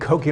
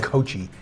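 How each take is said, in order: First: The middle consonant is a hard k sound. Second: The middle consonant is a soft ch sound. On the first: The speaker calls it right. "it's pronounced Koki" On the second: The speaker calls it wrong. "they all say Kochi. It's not Kochi"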